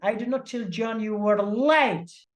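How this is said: The stress is on "late".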